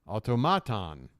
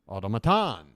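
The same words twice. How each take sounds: First: The stress is on the third syllable. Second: The stress is on the fourth syllable. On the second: "or four?"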